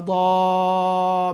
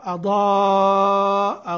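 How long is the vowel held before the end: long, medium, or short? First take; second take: long; medium. First: The long vowel is held for a long time. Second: The long vowel is held for a medium time. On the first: "وأشباع" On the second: "وتسقط"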